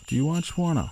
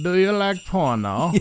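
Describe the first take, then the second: First: It is said in his natural voice. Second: It is said in a Borat impression.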